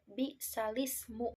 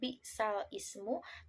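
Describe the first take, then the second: First: The two words are run together as one. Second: The two words are said as separate words. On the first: This is how it is recited. "dalam pembacaannya menjadi bi'salismu" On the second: This is how it is written. "dalam penulisannya bi'sal ismu"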